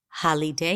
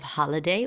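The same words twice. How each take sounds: First: The unstressed middle vowel is a full 'ee' sound. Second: The unstressed middle vowel is a reduced schwa. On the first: The speaker calls it wrong. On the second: The speaker calls it right.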